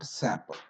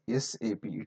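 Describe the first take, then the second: First: It is spoken as a single word. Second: It is spoken as three separate letters. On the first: The speaker calls it wrong. "It is not S A P" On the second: The speaker calls it right. "it must be pronounced as S A P"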